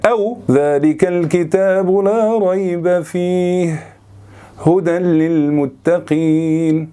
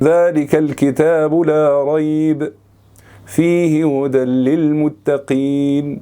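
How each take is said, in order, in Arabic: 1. يوجد وقف مباشرة بعد 'fihi'. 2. يوجد وقف مباشرة بعد 'la rayb'. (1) "هنا ما وقفناش على الأولانية ووقفنا على التانية" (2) "هنا وقفنا على أول واحدة وما وقفناش على التانية"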